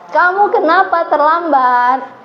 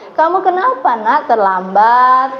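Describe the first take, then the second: First: A high, harsh, judging tone of voice. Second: A soft, disappointed and hurt tone of voice. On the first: The listener is being punished and judged. "menggunakan nada suara tinggi dan menghakimi" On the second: The listener is made to feel guilty. "Nadanya lembut, rasa kecewa tersakiti"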